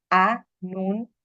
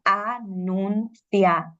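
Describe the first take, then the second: First: "Anunciadora" as a-nun-ci-a-do-ra, with long gaps; six separate syllables. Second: "Anunciadora" slowly as a-nun-cia-do-ra; five separate syllables. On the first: Teacher showing a Czech learner's division, six-syllable "Anunciadora". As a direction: break "Anunciadora" into six beats, CI and A apart. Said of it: "podría pensar que tiene seis sílabas". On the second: Teacher dividing the word, five-syllable "Anunciadora". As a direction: break "Anunciadora" into five beats, CIA as one. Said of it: "tendría cinco sílabas". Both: Shown as a demonstration.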